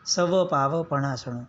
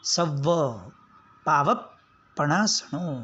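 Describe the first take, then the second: First: The v is short, said without extra force. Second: The v is doubled, said with extra force. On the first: The speaker calls it wrong. "આ તો બધું શુક્લકડી જેવું થયું" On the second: The speaker calls it right. "જોરથી ધક્કો મારવાનો"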